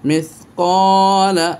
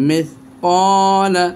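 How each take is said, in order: No difference in how they are said.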